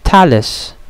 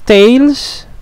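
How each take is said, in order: First: The name is said as two syllables. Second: The name is said as one syllable. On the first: The speaker calls it right. "you will pronounce it by syllables" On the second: The speaker calls it wrong. "You will not pronounce it as"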